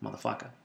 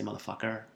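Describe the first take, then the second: First: Motherfucker ending in "-ah", no R; Boston dropped R. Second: Motherfucker with a clear final R; R pronounced. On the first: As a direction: say "Motherfucker" as "muthafucka". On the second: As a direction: say "motherfucker" ending in a hard "-er". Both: Shown as a demonstration. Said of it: "I didn't say motherfucker".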